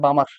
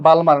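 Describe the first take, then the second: First: The word is said without an L sound. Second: The word is said with an L sound. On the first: The speaker calls it right. "এল উচ্চারণ করা হয় না।" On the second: The speaker calls it wrong. "এটা কিন্তু বালমার না রে"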